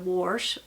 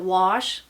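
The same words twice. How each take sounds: First: The word has an added r sound. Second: The word has no r sound. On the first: "they add a R" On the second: "wash turns into"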